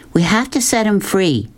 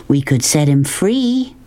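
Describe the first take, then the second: First: Higher, firm, sure of herself; loud and certain. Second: Said in the usual way. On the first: A narrator's reading. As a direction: insist on freeing the tiger, no doubt in it. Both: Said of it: "her voice loud and certain".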